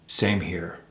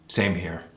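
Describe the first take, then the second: First: The pitch falls at the end. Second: The same.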